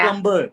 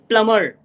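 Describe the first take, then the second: First: The B is pronounced after the M. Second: The B is silent after the M. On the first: The speaker calls it wrong. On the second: The speaker calls it right.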